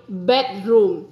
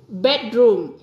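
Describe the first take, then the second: The two takes are said the same way.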